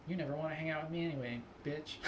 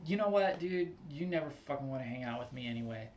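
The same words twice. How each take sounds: First: Deadpan quick comeback, breaking into a laugh; mock-composed retort with a chuckle at the end; considered, after a moment. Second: Mildly heated retort, rushing to the end; a little angry. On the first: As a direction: calmly deliver the insult, joking. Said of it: "I want to have the moment". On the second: Acted. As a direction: act out snapping back at a friend. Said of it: "a little bit angry".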